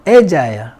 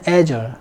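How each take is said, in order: First: It is said with a British pronunciation. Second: It is said with an American pronunciation. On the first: "영국에서는" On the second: "미국에서는"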